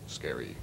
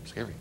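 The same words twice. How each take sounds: First: Low hushed mock spooky word; playful spooky murmur; mock scary. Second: Soft teasing spooky word; gentle mock spooky murmur; mock scary. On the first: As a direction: hush it like a campfire fright. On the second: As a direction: breathe it out as a pretend fright. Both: Placing rubber creatures to scare spiders.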